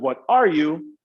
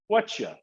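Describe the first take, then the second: First: Every word is pronounced in full. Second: The words are squeezed into a short reduced form.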